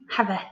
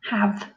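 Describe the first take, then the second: First: An extra vowel sound is added at the end. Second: The word ends on the v sound, no vowel. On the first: The speaker calls it wrong. "if we were going to sound out it would be h, a, v, e" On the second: The speaker calls it right. "we don't say the e on the end"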